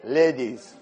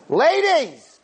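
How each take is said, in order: First: Said in the usual way. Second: Loud, sharp high Ladies!; loud call. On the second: Shown as a demonstration. The curator addressing the two ladies, the wrong loud way. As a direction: bark out "Ladies!" higher and louder. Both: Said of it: "Not like that".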